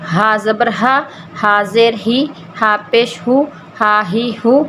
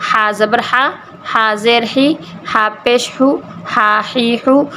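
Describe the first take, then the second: No difference in how they are said.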